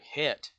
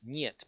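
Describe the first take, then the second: First: The word begins with an h sound. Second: The word begins with an n sound. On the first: The speaker calls it wrong. "You're like het, you know, no" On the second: The speaker calls it right. "It's niet because the H is a nya sound"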